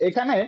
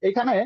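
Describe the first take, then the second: Both takes have the same delivery.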